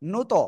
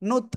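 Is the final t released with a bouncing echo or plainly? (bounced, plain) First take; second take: bounced; plain. First: The final t is released with a bouncing echo. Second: The final t is released plainly without echo. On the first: "ধাক্কা দিয়ে পড়বো" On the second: "simple আমরা পড়তাম"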